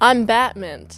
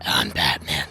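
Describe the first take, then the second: First: It is said in his normal voice. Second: It is said in a gruff Batman voice.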